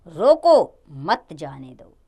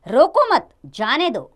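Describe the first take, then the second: First: रोको punched on its own, a long pause, then मत जाने दो; very slow, break after "रोको" and join "मत" to "जाने दो". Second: रोको मत together and loud, a pause, then जाने दो; pause after मत. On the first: (रोको पर ज़ोर देकर रुकें, फिर मत जाने दो) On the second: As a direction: slowly join "मत" to "रोको", break before "जाने दो". (रोको मत एक साथ, फिर रुककर जाने दो) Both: Shown as a demonstration. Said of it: "अल्प विराम के स्थान बदलने पर".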